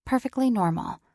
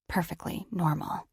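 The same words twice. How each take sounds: First: "Perfectly normal" said a bit higher and louder, insisting; wry insistence. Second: Deflated irony. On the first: Ellis telling herself she's fine, slightly raised. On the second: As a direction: let "Perfectly normal" fall flat and rueful. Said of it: "So that probably didn't look". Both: A narrator's reading.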